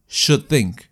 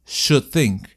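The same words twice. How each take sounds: First: "Should think" joined, the D held back without releasing air; unreleased D. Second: "Should think" again with the D of "Should" held, no burst of air; unreleased D. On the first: The teacher demonstrates the linked form to the students, D of "Should" left unreleased. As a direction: swallow the D of "Should" straight into "think". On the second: Showing the class the frustrated consonant, D of "Should" kept silent. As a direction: let the D of "Should" go mute before "think". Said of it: "¿Vieron?". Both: Shown as a demonstration.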